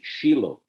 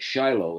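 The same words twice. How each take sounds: First: The name is said a different, local way. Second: The name is said the familiar English way. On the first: The speaker calls it right. "It's Shiloh" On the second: The speaker calls it wrong. "we all been mispronouncing the name all these years, calling it Shiloh"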